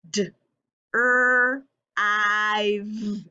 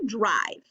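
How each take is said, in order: First: "D, er, I, v." as separate held sounds; sounding it out. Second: Said in the usual way. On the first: Shown as a demonstration. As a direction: break drive into d, rrr, long I, v. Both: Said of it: "stretching the word out".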